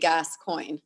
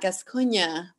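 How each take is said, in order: First: The name is pronounced the American way. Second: The name is pronounced the French way. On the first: "we've definitely uh, butchered it a bit and Americanized it" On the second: "in French, it's pronounced Gascogne"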